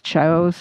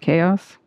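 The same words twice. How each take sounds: First: The word is said as it is spelled. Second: The word starts with a k sound. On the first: This is how someone who only read the word says it. The speaker calls it wrong. "people who learned language based on reading rather than listening" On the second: This is how the word is usually said. The speaker calls it right. "instead of chaos"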